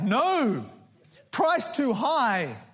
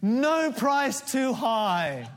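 First: There is a pause after 'no'. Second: There is no pause after 'no'.

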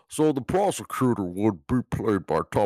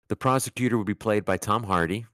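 First: It is said in a Bane impression voice. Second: It is said in the speaker's normal voice.

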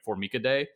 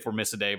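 First: It is pronounced in a classical Latin-style way. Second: It is pronounced in an English-style way. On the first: "in like actual Latin it would be like Formicidae" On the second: "I think in English people would say Formicidae"

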